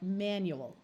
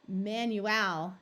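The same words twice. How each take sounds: First: The last syllable has a reduced schwa vowel. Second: The last syllable has a full, clear A vowel. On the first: The speaker calls it right. "it winds up sounding more like manual" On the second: The speaker calls it wrong. "rather than saying manual"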